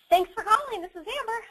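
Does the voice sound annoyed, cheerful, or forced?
cheerful. The voice sounds smiling, warm and energetic. The caller is genuinely welcome. The speaker calls it right. "smiling down the phone and you have energy"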